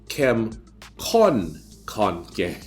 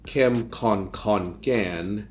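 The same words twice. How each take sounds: First: The first kon carries the main stress. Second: The first kon carries no special stress. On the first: The speaker calls it right. "You have to stress the first kon" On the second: The speaker calls it wrong. "it's not"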